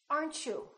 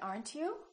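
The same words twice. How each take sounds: First: The t and 'you' merge into ch. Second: A plain t sound comes before 'you'. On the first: The speaker calls it right. "we say" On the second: The speaker calls it wrong. "We don't say"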